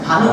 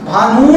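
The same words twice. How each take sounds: First: The final u vowel is short. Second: The final u vowel is long. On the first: The speaker calls it right. "वो छोटा रहता है बेटा" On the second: The speaker calls it wrong. "भानु नहीं होता है"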